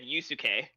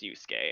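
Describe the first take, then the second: First: Every vowel in the name is pronounced. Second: One vowel in the name is dropped. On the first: This imitates how the other person said it. "like you pronounced each each vowel in it" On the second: This is how the English dub says it. "at least in the English voice over of the game, it's pronounced Yusuke"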